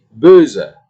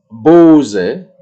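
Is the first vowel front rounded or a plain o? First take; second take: front rounded; plain o. First: The first vowel is a front rounded ö. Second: The first vowel is a plain back o. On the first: The speaker calls it right. "tetapi böse" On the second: The speaker calls it wrong. "Bukan bose"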